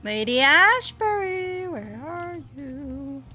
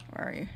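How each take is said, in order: First: Drawn-out high call, searching; sing-song calling. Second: Said in the usual way. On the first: Pretend. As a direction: call out her name slowly, lilting. Calling out for lost character.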